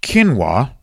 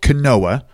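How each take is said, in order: First: Quinoa said properly as KEEN-wah; correct pronunciation. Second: Quinoa read as spelled, kuh-NO-uh; spelling pronunciation. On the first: Podcaster showing how it's pronounced, quinoa said KEEN-wah. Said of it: "It's pronounced quinoa". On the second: Podcaster showing how it's spelled, quinoa said kuh-NO-uh. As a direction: sound out quinoa letter by letter as kuh-NO-uh. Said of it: "It's spelled quinoa". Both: Shown as a demonstration.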